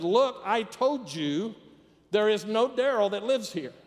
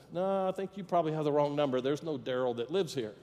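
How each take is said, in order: First: Higher, louder, word-by-word insistence; acted annoyance, slow and emphatic; exasperated. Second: Easygoing, mildly polite phone reply; lightly acted courtesy, quick start. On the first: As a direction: spell it out to a pestering caller. Annoyed person answers repeat call. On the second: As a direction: politely put a wrong-number caller right. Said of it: "very politely said".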